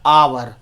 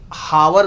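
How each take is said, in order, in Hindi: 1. शब्द की शुरुआत स्वर ध्वनि से होती है। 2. शब्द की शुरुआत 'h' ध्वनि से होती है। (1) "इसे पढ़ते हैं क्या, आवर" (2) "इसे हावर नहीं पढ़ते हैं"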